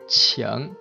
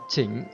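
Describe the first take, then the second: First: It has the standard Mandarin initial and tone. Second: It is said with Vietnamese-style sounds and tone. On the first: The speaker calls it right. "Các bạn phát âm chuẩn các bạn sẽ nói là chỉnh" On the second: The speaker calls it wrong. "các bạn học bồi các bạn cũng có thể đọc là chỉnh"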